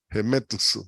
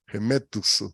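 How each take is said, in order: Both takes have the same delivery.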